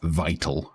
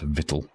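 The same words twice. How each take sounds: First: The first syllable sounds like 'vie'. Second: The first syllable sounds like 'vit'. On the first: The speaker calls it right. "the word is vital" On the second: The speaker calls it wrong. "not vital"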